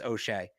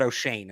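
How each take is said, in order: First: The name ends without an n sound. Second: The name ends with an n sound. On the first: The speaker calls it right. "The N is silent" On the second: The speaker calls it wrong. "It's not O'Shane"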